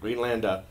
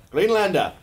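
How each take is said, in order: First: Said in the usual way. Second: GREENLANDER called high and loud; hammed-up proclamation. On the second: Joker trying out the new name, hammed-up proclamation. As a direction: proclaim it like a mock battle name. Repeats the word, hamming it up.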